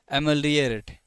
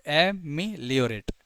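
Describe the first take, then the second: First: Said in the usual way. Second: "एमिलियोरेट" slowly, as ए-मि-लियोरेट; syllable-by-syllable demo. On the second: Shown as a demonstration. Teacher has students repeat after, "एमिलियोरेट" slowly in syllables. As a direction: stretch "एमिलियोरेट" out in separate chunks. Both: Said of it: "ऐसे बोलो".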